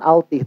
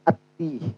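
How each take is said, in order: First: An l sound is heard before the t. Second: The l is silent, merged into the t. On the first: The speaker calls it wrong. "bukan altih" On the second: The speaker calls it right. "tapi ati, karena itu alif lamnya samsiah itu"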